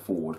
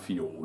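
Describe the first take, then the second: First: No 'y' sound follows the f. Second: A 'y' sound follows the f. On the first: The speaker calls it right. "instead of saying Ford" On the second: The speaker calls it wrong. "that's why I keep saying Fjord because I write it down Fjord"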